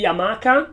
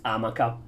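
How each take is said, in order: First: Hamaca stressed on the second A; Spanish stress. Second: Amaca stressed on the first A; Italian stress. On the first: Explaining the word's origin, hamaca stressed in the Spanish way on MA. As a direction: say hamaca as ha-MAH-ka. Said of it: "It comes from the Spanish". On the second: Explaining retraction of the accent, amaca stressed on the first syllable. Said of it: "in Italian it's pronounced". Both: Shown as a demonstration.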